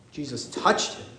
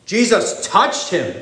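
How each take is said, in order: First: "Jesus touched him" softly, lower, in awe; hushed awe. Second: Said in the usual way. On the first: Shown as a demonstration. Preacher marvelling to the congregation, hushed awe. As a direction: drop it to a hush. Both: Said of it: "repeated for emphasis".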